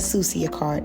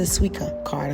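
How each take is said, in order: First: The name is said as soo-see-ah. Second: The name is said as soo-ee-ka. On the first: The speaker calls it wrong. "it is not a Sucia card" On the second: The speaker calls it right. "it is a Suica card"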